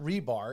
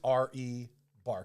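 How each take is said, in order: First: The first part is said as one word. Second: The first part is spelled out as letters. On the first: The speaker calls it wrong. "It is not rebar" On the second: The speaker calls it right. "It is R E Bar Camp"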